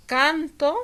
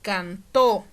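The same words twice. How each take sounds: First: "canto" with a loud, high first syllable CAN; CAN-to, stressed on the first syllable. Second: "cantó" with a loud, punched last syllable TÓ; teacher's demo of final stress on TÓ. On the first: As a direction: hit the CAN of "canto", end lifted. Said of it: "permite distinguir entre palabras que se escriben". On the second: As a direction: hit the end of "cantó", can-TÓ. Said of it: "no es lo mismo que decir". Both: Shown as a demonstration.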